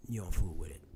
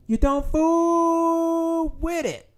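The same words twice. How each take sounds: First: Said in the usual way. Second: FOOL stretched very long and high; drawn-out emphasis. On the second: Real, not acted. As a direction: hold a long, raised note on "fool". Repeats warning for emphasis.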